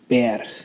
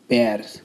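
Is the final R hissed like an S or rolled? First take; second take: hissed; hissed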